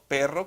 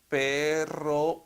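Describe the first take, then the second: First: The word is said at normal fluent speed. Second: The word is drawn out very slowly. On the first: The reader recognizes the word automatically. The speaker calls it right. "como lo le leería un lector competente" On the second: The reader is still decoding letter by letter. The speaker calls it wrong. "muy despacio"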